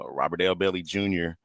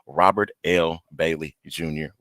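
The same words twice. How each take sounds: First: The name is said quickly and unclearly. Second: The name is said slowly and clearly. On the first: The speaker calls it wrong. "Excuse me" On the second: The speaker calls it right. "Let me say that slowly"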